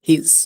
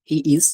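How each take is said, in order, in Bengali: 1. শব্দ দুটো মিশে গিয়ে একটা ছোট শব্দ হয়ে যায়। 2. দুটো শব্দই পুরোপুরি আলাদা করে বলা হয়। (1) "সংক্ষেপ হচ্ছে হিজ" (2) "ফুল ফর্ম হচ্ছে হি ইজ"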